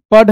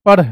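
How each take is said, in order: First: "पढ़" ending in a hard dh, no flap; hard-stop ढ. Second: "पढ़" ending in a flapped rh. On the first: Teacher showing pupils the misreading, "पढ़" with hard dh. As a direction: close "पढ़" on a firm retroflex stop. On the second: Teacher correcting the reading for pupils, "पढ़" with flapped rh. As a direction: flick the tongue at the end of "पढ़". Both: Shown as a demonstration. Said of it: "पढ़ नहीं बल्कि".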